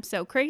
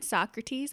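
First: "Socrates" said as two words, "so crates"; mispronounced Socrates. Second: Said in the usual way. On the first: Retold or imitated. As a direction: say "Socrates" to rhyme with "no dates". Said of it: "they call him Socrates". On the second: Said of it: "but they call him".

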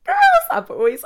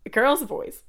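First: Put-on girls and boys shrieked much higher and louder; dramatic squealed address to the audience; loud high call. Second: Said in the usual way. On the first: Calling to her audience.

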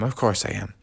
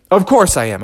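First: Much lower and softer, trailing off; hurt bear quietly repeating he's fine; soft fading repeat. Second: A touch higher, firm insisting; hurt bear insisting to his friends he's fine; brave insisting. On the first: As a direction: repeat it to yourself weakly. Bubby insists he is fine. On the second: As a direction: shrug off the injury. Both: Acted.

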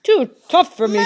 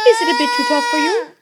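First: Loud giant's retort; indignant shout. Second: High, quick taunt; teasing wife. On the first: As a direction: throw the taunt back at full volume. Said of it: "shouted Cuchulainn". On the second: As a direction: needle the giant with a question. Wife taunts the hurt giant. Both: A narrator's reading.

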